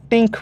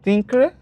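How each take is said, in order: First: টিঙ্ক with a hard t in place of th; wrong tink. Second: থিঙ্ক with a breathy th sound, not a hard t; correct think. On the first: Teacher mimics the students' wrong টিঙ্ক, with a hard t. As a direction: say টিঙ্ক with a hard t, the common mistake. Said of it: "আপনি টিঙ্ক বলতেছেন". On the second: Teacher shows students the right থিঙ্ক, with a breathy th. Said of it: "থিঙ্ক রে আপনি টিঙ্ক বলতেছেন". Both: Shown as a demonstration.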